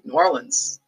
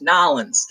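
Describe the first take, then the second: First: The city name is said in a general accent. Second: The city name is said in a Cajun accent.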